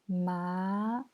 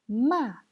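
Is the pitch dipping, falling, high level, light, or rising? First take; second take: rising; falling. First: The pitch rises from middle to high. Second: The pitch falls sharply from high to low. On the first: "Deuxième ton" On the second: "Quatrième ton"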